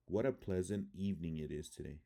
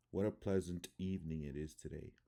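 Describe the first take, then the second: First: Said in the usual way. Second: "pleasant" as PLEZ-nt, weak second vowel; schwa reduction. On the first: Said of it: "I'm gonna read the word". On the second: Shown as a demonstration. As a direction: swallow the unstressed vowels in "pleasant" and "today". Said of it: "how it would sound in English".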